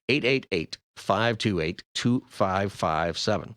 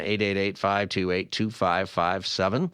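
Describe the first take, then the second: First: The number is read slowly. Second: The number is read quickly. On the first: Listeners can catch the number. The speaker calls it right. "I'll say it slower" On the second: Listeners may not catch the number. The speaker calls it wrong. "you said it too fast. Well, I probably did"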